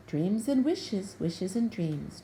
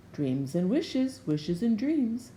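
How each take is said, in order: First: Jubal with a wink. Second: Slow, knowing wizard's singsong; a wizard's slow playful riddle; wizard with a wink. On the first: Jubal echoing the wizard, slow and knowing. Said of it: "Jubal said with a wink". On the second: The wizard winking at Jubal, slow and knowing. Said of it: "the wizard said with a wink". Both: A narrator's reading.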